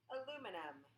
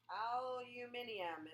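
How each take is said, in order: First: It is said in a plain American way. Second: It is said in a British way.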